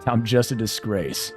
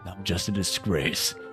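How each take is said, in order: First: It is said in his ordinary voice. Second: It is said in a sinister trailer voice.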